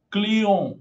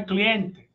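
First: Client said klio, nasal end, no T; French Client, final T silent. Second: Cliente with the T and final e; said the Portuguese way, cliente; wrong take, cliente in Portuguese. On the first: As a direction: drop the T in Client, nasal vowel. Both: Shown as a demonstration. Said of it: "não é cliente".

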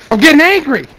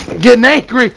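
First: Higher, stressing getting, more irritated; angrier. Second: A touch of annoyance, slightly raised; first mild warning of anger; getting angry. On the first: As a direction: repeat it with rising frustration. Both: Real, not acted.

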